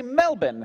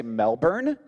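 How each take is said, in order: First: MELBOURNE as MEL-bin, R dropped; MELBOURNE with a short unstressed ending; Australian Melbourne. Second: MELBOURNE with a sounded R, MEL-burn; MELBOURNE the rejected American way. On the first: Locals correcting the Floridian, MELBOURNE as MEL-bin. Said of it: "You have to say Melbourne". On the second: Locals scolding the Floridian, MELBOURNE as MEL-burn. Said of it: "You can't say Melbourne". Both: Retold or imitated.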